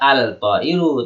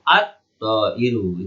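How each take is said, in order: First: The L sound is pronounced before the T. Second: The L blends into a doubled T sound. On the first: The speaker calls it wrong. "Bukan dibaca al-ta'iru" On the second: The speaker calls it right. "dibaca langsung at-ta'iru"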